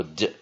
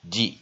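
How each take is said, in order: First: D as a short "duh"; reduced vowel. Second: D as "dee", clear "ee"; full vowel. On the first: Teacher repeating second option for weak syllable, D as "duh". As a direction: say D with a schwa, "duh". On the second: Teacher repeating first option for weak syllable, D as "dee". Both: Shown as a demonstration. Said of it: "你可以念D或D".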